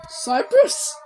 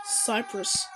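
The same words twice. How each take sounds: First: "Cyprus" rising into a question; questioning "Cyprus", pitched up at the end; puzzled question. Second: Soft, low falling "Cyprus"; low-key statement of "Cyprus"; subdued naming. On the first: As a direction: ask "Cyprus" with a sharp upward lift. Same word repeated as puzzled question. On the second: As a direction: say "Cyprus" quietly, dropping away. Flag named, then named as question. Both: Real, not acted.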